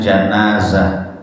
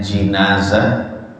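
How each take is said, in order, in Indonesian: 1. Suku kata pertama memiliki vokal 'a'. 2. Suku kata pertama memiliki vokal 'i'. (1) "yaitu dengan fathahnya huruf jim" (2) "itu dengan kasrahnya jim"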